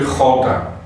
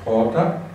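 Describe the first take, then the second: First: The throat sound is strong and scratchy. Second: The throat sound is soft and light. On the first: "com a garganta arranhada" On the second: "muito, muito leve"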